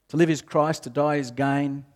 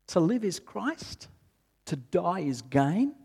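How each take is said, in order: First: It is read in a flat, mechanical tone. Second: It is read in a doubtful, questioning tone. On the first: The reader recites it without personal conviction. "sometimes we read it in a really rote sort of way" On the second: The reader is unsure the statement is true. "Sometimes we read it in a really questioning sort of way"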